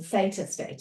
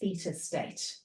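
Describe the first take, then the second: First: Theta is said the American way. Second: Theta is said in a non-American way.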